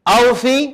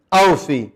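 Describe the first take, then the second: First: Drawn out with a rising tune; rising call. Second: Lower, settled falling tune; falling answer. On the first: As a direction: call it out like a question to the class. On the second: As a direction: answer it firmly, closing down. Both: Shown as a demonstration. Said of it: "یہاں سے اور وہاں تک".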